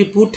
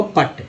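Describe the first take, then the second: First: पुट with a short "oo" vowel; correct short OO. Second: पट with a short "uh" vowel; misread short uh. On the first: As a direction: say "put" as पुट, vowel as in foot. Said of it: "P U T पुट है". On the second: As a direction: misread "put" as पट, rhyming with but. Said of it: "अंग्रेजों ने ऐसा तय नहीं किया है". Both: Shown as a demonstration.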